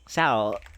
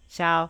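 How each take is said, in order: First: The word is said on a lower pitch. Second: The word stays on a high, level pitch. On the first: "the smallest and like" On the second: "the tone where it's just like the top pitch"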